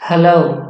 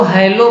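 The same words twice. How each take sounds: First: हेलो said as uh-lo, no h and a short first vowel; the right way: हेलो as a light uh-lo; correct hello. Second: हेलो said as heh-ilo with an h and a gliding ei; the wrong way: हेलो as hei-lo, breathy h up front; wrong hello. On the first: Teacher giving students the correct हेलो, uh-lo. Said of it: "इसका सही pronunciation होता है हेलो". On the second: Teacher warning students off the bad हेलो, heh-ilo. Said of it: "इसको हेलो मत पढ़ना". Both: Shown as a demonstration.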